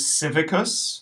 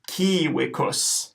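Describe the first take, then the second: First: The word begins with a soft S sound. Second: The word begins with a hard K sound. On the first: The speaker calls it wrong. "we might want to pronounce this word as civicus" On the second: The speaker calls it right. "the C is going to be hard, a hard K, and we know that the V is going to be pronounced as a W"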